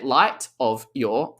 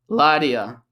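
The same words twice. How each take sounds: First: Each word is pronounced fully and separately. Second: The words are reduced and linked with a flap. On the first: "I didn't say light of your" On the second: "I said light of your, ... Lie, da, ya"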